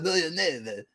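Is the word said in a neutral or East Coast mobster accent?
East Coast mobster. It is said in an East Coast mobster accent.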